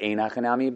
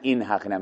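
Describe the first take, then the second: First: The first word is said with an 'ayin' vowel. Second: The first word is said as a short 'een'. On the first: The speaker calls it right. "it's really ain Hachanami" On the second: The speaker calls it wrong. "There is no such thing as in"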